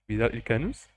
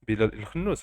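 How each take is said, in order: First: The surname starts with a plain k sound. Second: The surname starts with a rough kh sound. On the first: The speaker calls it wrong. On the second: The speaker calls it right.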